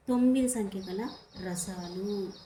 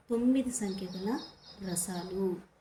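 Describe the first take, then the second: No difference in how they are said.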